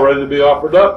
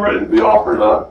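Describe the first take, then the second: First: It is said in a calm, matter-of-fact tone. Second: It is said in a tearful, emotional tone. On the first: The speaker accepts death calmly. The speaker calls it right. "I think he simply said, as a matter of fact" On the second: The speaker is distressed about dying. The speaker calls it wrong. "He didn't say this with tears in his eyes. He didn't say, oh"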